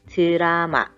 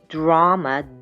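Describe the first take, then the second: First: The starting d sound is light and soft. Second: The starting d sound is heavy and voiced. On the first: The speaker calls it right. "much lighter" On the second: The speaker calls it wrong. "Not drama"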